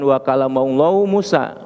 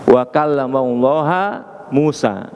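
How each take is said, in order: First: Allah ends with a nominative 'u' vowel. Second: Allah ends with an accusative 'a' vowel. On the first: God is the one who spoke. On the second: Moses is the one who spoke. "pakai nasab"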